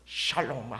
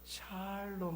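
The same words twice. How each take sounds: First: The word ends with a tense, harsh sound. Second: The word is said softly, ending gently. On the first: It could sound like a curse. The speaker calls it wrong. "끝에 농자가 들어가더라고요" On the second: It is a proper greeting of peace. The speaker calls it right. "좀 부드럽게 샬롬 하셔야지"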